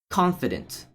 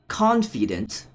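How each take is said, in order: First: The middle vowel is a weak schwa. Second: The middle vowel is a full, clear vowel. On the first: The speaker calls it right. "there's a hidden schwa" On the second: The speaker calls it wrong. "not confident"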